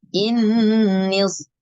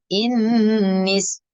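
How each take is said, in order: First: The s sound is heavy and thick. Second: The s sound is light and thin. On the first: The speaker calls it right. "tapi innis. Nah, itu dibaca dibaca tebal" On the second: The speaker calls it wrong. "bukan innis"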